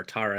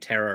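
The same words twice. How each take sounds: First: Tara said as TAR-a; other of two variants. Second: Tara said as TERR-a; one of two variants. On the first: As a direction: say "Tara" with an open "ah". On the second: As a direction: say "Tara" with an "air" vowel. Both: Shown as a demonstration. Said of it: "I always say it wrong".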